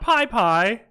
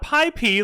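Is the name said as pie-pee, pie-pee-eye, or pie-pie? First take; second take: pie-pie; pie-pee. First: The name ends with a repeated pie syllable. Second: The name ends with the letter P only. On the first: "not Pi Pi" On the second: "not Pi P like some of the dumb Americans say"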